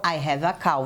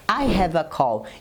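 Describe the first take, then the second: First: The last word ends in a vowel, like 'cow'. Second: The last word ends with a clear L sound. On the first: The speaker owns a cow. The speaker calls it wrong. "E não ... Você não tem uma vaca" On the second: The speaker has an online meeting. The speaker calls it right. "o que você quer dizer é que você tem uma conference call"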